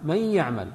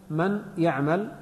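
First: "من يعمل" run together as may-ya'mal, doubled y; nasalised double y linking "من يعمل"; merged noon. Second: "من يعمل" slowly, with a separate n in من before the ya; two separate words in "من يعمل", clear n; unmerged noon. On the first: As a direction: melt the n of "من" into a held ya of "يعمل". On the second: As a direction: sound the noon of "من" apart from "يعمل". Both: Shown as a demonstration. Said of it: "تدغم النون في الياء فنقرأها".

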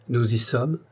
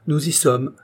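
First: SOMMES rising into a question; "sommes" left hanging upward as a query. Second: Higher start, SOMMES falling to confirm; "sommes" closed downward as a statement; confirming answer. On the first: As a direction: ask it, lifting the tune on "sommes". Friend asks if ready. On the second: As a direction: answer firmly, dropping the tune on "sommes". Narrator confirms in reply. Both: A narrator's reading.

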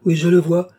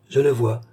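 First: Higher and louder, suddenly seeing it; rising cry of recognition; excited vision. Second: Said in the usual way. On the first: Acted. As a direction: burst out as the vision appears. Lorenza in trance, seeing vision.

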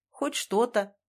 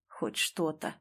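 First: Said in the usual way. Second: Low, very soft echoed reply; hollow echo. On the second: A narrator's reading. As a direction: repeat it like a fading echo, low and quiet. (тихим, низким эхом) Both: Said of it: "эхом откликнулся Бессонов".

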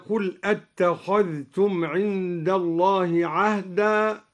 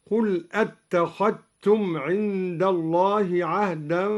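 First: Said in the usual way. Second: أتخذتم said "attakhattum", dhal merged into t. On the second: Shown as a demonstration. Teacher showing al-Duri's assimilation, أتخذتم with "tt" for "dht". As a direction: drop the dh of أتخذتم into a doubled t. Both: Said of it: "أدغم الدوري الذال في التاء".

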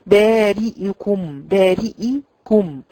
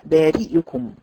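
First: بارئكم slow, the hamza leaning into imala; tilted hamza mistake. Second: بارئكم said firmly with a clear hamza and kasra; the corrected بارئكم, slow and clean; correct pronunciation. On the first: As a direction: drag بارئكم with a tilted, wrong vowel. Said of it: "تخرج معاكي ممالة". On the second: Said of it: "لا". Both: Shown as a demonstration.

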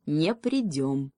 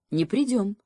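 First: Firm. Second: Firm short confirmation; affirming with a nod in the voice; confirming. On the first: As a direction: plant each word like a stone. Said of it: "твёрдо сказал ёж". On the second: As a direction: say it like a promise kept. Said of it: "подтвердил заяц". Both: Acted.

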